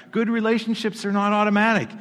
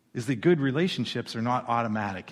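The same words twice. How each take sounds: First: GOOD said high and loud; emphatic repeat. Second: Said in the usual way. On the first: Shown as a demonstration. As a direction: repeat "Good relationships are not automatic" louder, higher. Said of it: "repeated for emphasis". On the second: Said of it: "first plain statement".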